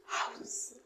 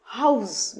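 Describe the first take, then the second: First: হাউস with a long breath of air on h; breathy house demo. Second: হাউস said normally; house demo. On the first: Teacher showing the breath in হাউস. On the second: Teacher repeating হাউস in her own voice. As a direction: say হাউস plainly. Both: Shown as a demonstration. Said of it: "প্রথমে কী হা- বেরোয়".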